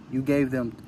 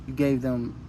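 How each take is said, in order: Both takes have the same delivery.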